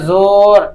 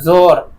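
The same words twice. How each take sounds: First: The vowel is drawn out long. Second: The vowel is short, not drawn out. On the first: The speaker calls it wrong. "नहीं बोलते हैं" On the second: The speaker calls it right. "खींच कर ना पढ़ी जाए"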